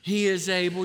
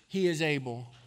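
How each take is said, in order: First: It is said with more passion and force. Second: It is said in a plain, calm way. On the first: "A little more passion this time" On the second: "Say it with me"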